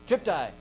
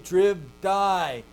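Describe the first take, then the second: First: The consonant before the t is a voiceless p. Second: The consonant before the t is a voiced b. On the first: The speaker calls it right. "it's just easier to pronounce" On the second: The speaker calls it wrong. "I don't want to say trib die"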